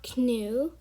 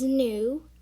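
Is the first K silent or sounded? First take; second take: sounded; silent. First: The word begins with a sounded K. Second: The word begins with a silent K. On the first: The speaker calls it wrong. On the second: The speaker calls it right.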